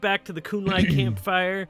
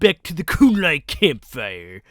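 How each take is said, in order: First: It is said in a natural speaking voice. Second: It is said in a put-on character voice.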